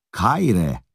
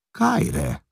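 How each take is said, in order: First: A friendly Greek hello with a smile; smiling greeting. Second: Echoing the greeting much higher, astonished; amazed echo. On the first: A Hun man smiling as he greets Priszkosz. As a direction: greet him warmly, as if meeting a countryman. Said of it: "reá mosolyog Priszkoszra". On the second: Priszkosz, stunned to hear his own language, echoes the greeting in amazement. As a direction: repeat it back in pure disbelief. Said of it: "ámul rá Priszkosz". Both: A narrator's reading.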